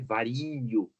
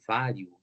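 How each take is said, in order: First: The i is sounded as a full separate vowel. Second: The i glides quickly into the final vowel. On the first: The speaker calls it wrong. "se fosse falar vario, aí já fica estranho" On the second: The speaker calls it right. "é vário"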